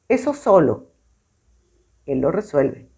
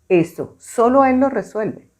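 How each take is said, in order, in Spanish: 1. La pausa está después de 'solo'. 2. La pausa está después de 'Eso'. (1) "voy a hacer la pausa donde está la coma" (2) "voy a hacer la pausa donde está la coma"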